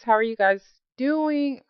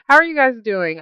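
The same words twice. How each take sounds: First: It is said in an odd, put-on way. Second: It is said in a normal voice.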